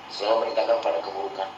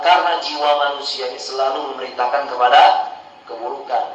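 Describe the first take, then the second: First: Softer and fast, like an aside; quick hushed echo of the point; quick soft repeat. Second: Said in the usual way. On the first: Shown as a demonstration. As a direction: rush the phrase "Selalu memerintahkan kepada keburukan" quietly, lower.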